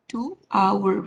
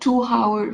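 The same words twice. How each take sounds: First: The word hour begins with a vowel, no h. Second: The word hour begins with an audible h sound. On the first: The speaker calls it right. "pronounce that in without H" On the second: The speaker calls it wrong. "you're not going to use hour, hour"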